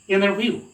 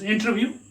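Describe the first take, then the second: First: It is said in an American accent, dropping t. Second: It is said in an Indian accent. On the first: "American people they sound it as interview. The omit the sound ta here" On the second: "we Indians pronounce it as interview"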